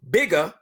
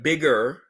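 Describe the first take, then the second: First: The final r sound is dropped. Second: The final r sound is pronounced.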